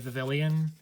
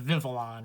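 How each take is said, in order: First: The word ends with an added 'lee-on' sound. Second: The word ends with a plain 'lon' sound. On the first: The speaker calls it wrong. "So many people say Vivillon" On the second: The speaker calls it right. "so it's Vivillon, right? There's no second, there's no third I after the L's"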